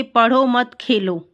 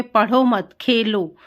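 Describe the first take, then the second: First: Slow, पढ़ो set apart from मत खेलो; pause after पढ़ो. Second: पढ़ो मत together, then खेलो apart; pause after मत. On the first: Teacher shows how punctuation changes meaning, pausing after पढ़ो. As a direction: break after पढ़ो, then मत खेलो together. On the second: Teacher shows the opposite meaning, pausing after मत before खेलो. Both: Shown as a demonstration. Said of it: "वाक्य में अर्थ का परिवर्तन विराम चिन्ह के कारण".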